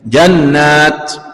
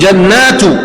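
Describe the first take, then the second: First: The word ends in a bare t. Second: The word ends with a vowel after t. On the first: The word ends the verse with a stop. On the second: The word is joined to the next word. "Kalau di sini jannatu"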